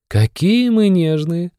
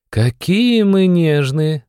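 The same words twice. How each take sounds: First: High, slow, mocking sneer. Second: High, slow, eye-rolling sneer; mocking. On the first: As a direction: drawl it out teasingly, high. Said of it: "усмехнулась Эмма". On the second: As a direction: drawl it out with a scornful roll. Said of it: "закатила глаза Эмма". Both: A narrator's reading.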